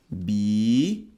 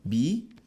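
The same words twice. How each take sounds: First: Bíceps broken into bí, cê, ps with long gaps; bíceps as three separate beats, final ps standing alone; wrong syllable split. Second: Bíceps in two beats, bí then ceps; bíceps split once, the ps kept on the second syllable; correct syllable split. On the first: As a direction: spell out bíceps slowly in three pieces, the ps a bare hiss. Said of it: "pensa na sonorização da palavra". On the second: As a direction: say bíceps slowly as bí, pause, ceps. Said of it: "A separação correta de bíceps". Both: Shown as a demonstration.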